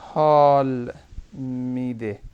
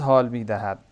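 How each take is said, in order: First: The verb is shortened to 'mide'. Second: The verb is said in full as 'mi dahad'. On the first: This is the casual spoken way of saying it. "अब देखें कैसे spoken" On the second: This is the formal way of saying it. "ये तो फॉर्मल सा लग रहा है ना"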